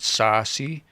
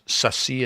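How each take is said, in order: First: The first vowel is long. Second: The first vowel is short. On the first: The speaker calls it wrong. "and not sasi" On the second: The speaker calls it right. "I'm certain the way he's saying that is sasi"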